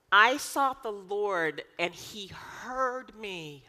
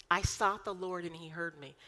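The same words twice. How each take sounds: First: Slow and drawn out, weight on sought; slow emphatic reading. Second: Said in the usual way. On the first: Shown as a demonstration. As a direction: linger on each word, leaning into sought. Reciting psalm with emphasis.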